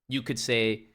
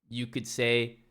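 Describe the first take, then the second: The two takes are said the same way.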